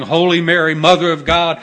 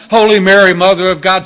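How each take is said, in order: First: Loud, urgent prayer of a wounded soldier; dying soldier praying. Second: "Holy Mary" shouted much louder, rising, pleading; desperate praying. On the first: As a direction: call the prayer out loud, pleading. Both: Retold or imitated. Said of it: "The Catholics would be saying".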